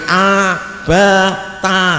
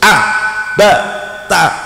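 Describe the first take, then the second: First: Each syllable is drawn out long. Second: Each syllable is short and crisp. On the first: The speaker calls it wrong. "tidak boleh a ba ta, nah, itu namanya panjang" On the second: The speaker calls it right. "harus pendek-pendek ini ya. Harus a ba ta"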